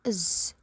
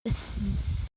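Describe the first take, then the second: First: The z sound is short. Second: The z sound is held long.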